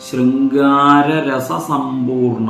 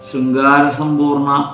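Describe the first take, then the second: First: Both 'ra' syllables are clearly pronounced. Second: It is rushed and one 'ra' is dropped. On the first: The speaker calls it right. "ആ രണ്ട് ര എന്നും ഉച്ചരിക്കണം" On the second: The speaker calls it wrong. "ധൃതി പിടിച്ച് ചൊല്ലരുത്"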